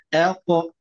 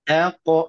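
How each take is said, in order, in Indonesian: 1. Vokal pertama ringan dan tipis. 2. Vokal pertama ringan dan tipis.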